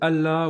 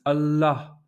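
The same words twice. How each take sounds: First: It is said plainly, without final H or long L. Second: The L is held long and the H heard. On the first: The speaker calls it wrong. "vous sonnerez très français" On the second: The speaker calls it right. "en prononçant le L géminé. C'est comme si vous allongiez le L"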